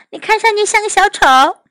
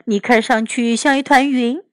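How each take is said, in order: First: Put-on high, quick child character voice; Amanda. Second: Plainly voiced boy character; Oliver. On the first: Girl teases Oliver in Mandarin, high quick voice. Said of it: "阿曼达看了看奥利弗". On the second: Boy answers his sister's teasing, lightly voiced. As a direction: reply close to the storyteller's own pitch. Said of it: "奥利弗说". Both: A narrator's reading.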